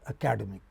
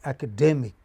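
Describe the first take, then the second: First: The stress falls on another syllable, not the third. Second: The stress falls on the third syllable. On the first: The speaker calls it wrong. "not academic" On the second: The speaker calls it right. "it is academic"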